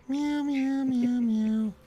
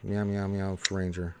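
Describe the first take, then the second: First: High-pitched cat meows; nervous cat voice. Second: Said in the usual way. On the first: Pretend. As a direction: meow like a little cat, way up high. Meowing after cat talk.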